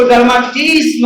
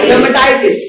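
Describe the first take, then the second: First: डर्माटिस with the middle 'tai' syllable lost; the faulty short reading डर्माटिस; wrong pronunciation. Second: डर्मेटाइटिस with a full 'tai' syllable; teacher's full reading of डर्मेटाइटिस; correct pronunciation. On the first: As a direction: misread it as डर्माटिस, dropping a syllable. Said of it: "मत पढ़िएगा". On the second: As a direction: model डर्मेटाइटिस clearly, every syllable in. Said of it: "क्या पढ़ेंगे?". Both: Shown as a demonstration.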